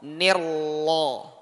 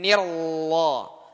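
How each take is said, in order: First: The r is clearly trilled. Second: The r is clearly trilled.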